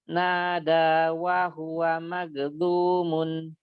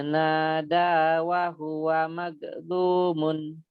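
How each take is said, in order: Both takes have the same delivery.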